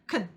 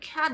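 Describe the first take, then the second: First: The word is said quickly with a weak vowel. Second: The word is said fully with a clear vowel. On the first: The speaker calls it right. "문장 속에서는 can 이렇게 간다고 그랬죠? 쓱 지나가듯이" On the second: The speaker calls it wrong. "can 이렇게 발음하지 않고"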